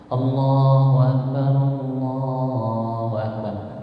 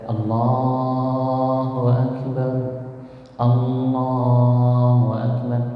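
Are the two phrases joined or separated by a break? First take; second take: joined; separated. First: The two phrases run together without a break. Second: The two phrases are separated by a break. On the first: The speaker calls it right. "tapi disambung" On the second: The speaker calls it wrong. "Tidak ... jangan dipisah"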